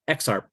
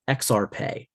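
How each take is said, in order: First: The word is pronounced just as it is written. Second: The word is pronounced with a more Latin sound. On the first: This follows one camp's reading of the word. "some people say it's said exactly like it's written" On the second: This follows another camp's reading of the word. "some people will say that it sounds more Latin"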